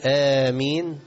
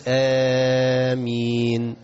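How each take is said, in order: First: "آمين" بمد قصير, حركتين; قل "آمين" قصيرة المد; short amen. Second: "آمين" ممدودة طويلا جدا; مد "آمين" مدا طويلا; long drawn amen. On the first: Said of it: "ينفع تقول". (آمين بمد قصير) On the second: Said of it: "وينفع تمد". (آمين بمد طويل) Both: Shown as a demonstration.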